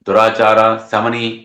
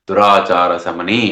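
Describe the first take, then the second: First: The two words are split with a break. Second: The two words are joined without a break.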